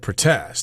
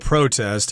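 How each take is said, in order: First: It has the non-American pronunciation for the verb. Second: It has the American pronunciation, like the noun. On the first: "in other parts of the world you might hear protest" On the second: "in America we tend to pronounce the noun and the verb the same way"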